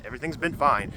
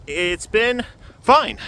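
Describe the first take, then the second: First: Said in the usual way. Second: High, slow, stretched-out fine; drawn-out reassurance. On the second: Real, not acted. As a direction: draw out the word fine, reassuringly. Repeats that things are fine.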